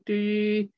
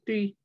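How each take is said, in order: First: The vowel is long, stretched over two counts. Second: The vowel is short, held for one count. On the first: The speaker calls it wrong. "I won't say three" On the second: The speaker calls it right. "I'll say three. I won't make it long"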